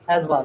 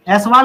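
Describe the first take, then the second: First: ऐजवाल said with a buzzing z sound in the middle; correct pronunciation. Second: ऐसवाल said with a hissed s sound in the middle; wrong pronunciation. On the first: Teacher giving the class the right way: ऐजवाल with z. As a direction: say ऐजवाल properly, with z. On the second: Teacher showing the class the wrong way: ऐसवाल with s. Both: Shown as a demonstration. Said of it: "ऐसवाल नहीं".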